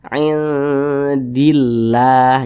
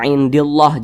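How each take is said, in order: First: The 'lah' sound is light and thin. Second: The 'lah' sound is heavy and thick. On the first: The speaker calls it right. "dibaca tipis, dibaca tarkik" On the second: The speaker calls it wrong. "jangan dibaca indillah, jangan"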